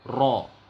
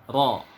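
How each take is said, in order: First: The r is trilled heavily with many taps. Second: The r is trilled lightly with few taps. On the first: The speaker calls it wrong. "kalau kita samakan getar huruf ro dengan huruf R" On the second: The speaker calls it right. "Bunyinya seperti ini"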